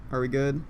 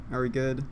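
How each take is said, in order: Both takes have the same delivery.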